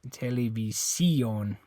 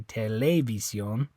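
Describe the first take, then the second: First: The stress is on the fourth syllable. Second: The stress is on the second syllable. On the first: "And it's not this I. You don't say televi televisión" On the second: "It's not that E. You don't say televisión"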